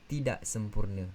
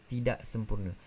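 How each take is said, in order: The two takes are said the same way.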